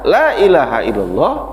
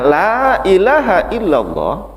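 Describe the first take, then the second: First: The vowel in 'la' is held short. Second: The vowel in 'la' is held long. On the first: It affirms that other gods exist. The speaker calls it wrong. "dibaca ... Satu harokat" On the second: It denies any god but one. The speaker calls it right.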